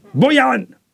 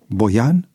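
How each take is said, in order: First: High, sharp call with a falling end; shouted name. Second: BOIAN with a rising, questioning tune at usual volume; questioning echo. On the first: Chief calling a man out of the ranks, shouting. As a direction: call him out like a boss before the ranks. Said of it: "șeful strigă". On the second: George barely holding back the name, questioning Boian with a rise. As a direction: say Boian as an unsure question, pitch lifting at the end. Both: A narrator's reading.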